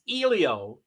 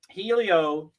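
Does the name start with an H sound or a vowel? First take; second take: vowel; H sound. First: The name begins with a vowel sound. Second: The name begins with an H sound. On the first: The speaker calls it right. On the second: The speaker calls it wrong.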